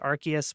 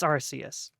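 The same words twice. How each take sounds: First: The c is said with a k sound. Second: The c is said with an s sound. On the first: The speaker calls it wrong. "they do say Arceus when it's in English, which is like a little ridiculous" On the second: The speaker calls it right. "it's Aruseusu. So I'm pretty sure it's Arceus"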